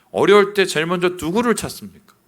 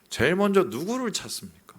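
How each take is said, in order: First: 어려울 stressed, louder; louder insistent. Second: Said in the usual way. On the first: Real, not acted. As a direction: push the question harder. Repeated question louder. (더 크게 강조해서 다시 묻기)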